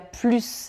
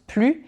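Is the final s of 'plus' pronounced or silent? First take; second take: pronounced; silent. First: The final s sound is pronounced. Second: The final s sound is silent. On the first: It means a greater quantity. "Dans le premier je dis quand il y a plus d'alcool. Donc là on parle d'une quantité supérieure" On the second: It means there is none left. "je le prononce plus parce que ici, normalement, ce serait quand il n'y a plus de musique"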